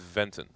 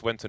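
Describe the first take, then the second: First: The name begins with a V sound. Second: The name begins with a W sound. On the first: This is the Swedish way of saying the name. "W pronounce it like a V" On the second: This is how most people say the name. "Everyone says Wenton"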